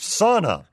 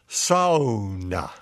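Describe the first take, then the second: First: The first vowel is not like 'ou' in 'sound'. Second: The first vowel is like 'ou' in 'sound'. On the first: The speaker calls it wrong. "sauna is not properly pronounced sauna, as is typical in most U.S. media" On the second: The speaker calls it right. "closest to sauna. With the S-O-U as in sound"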